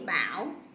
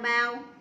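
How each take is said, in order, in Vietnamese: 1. Âm tiết này có thanh hỏi. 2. Âm tiết này có thanh ngang.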